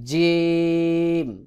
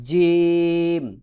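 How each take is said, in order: First: The first consonant is a firm j sound. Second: The first consonant is a firm j sound.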